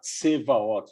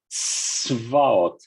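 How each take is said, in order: First: A vowel is inserted after the first consonant. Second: The first consonants are said with no vowel between. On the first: The speaker calls it wrong. "Não é para falar tsevaot, não é para colocar um i ou um o" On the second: The speaker calls it right. "É assim, ó"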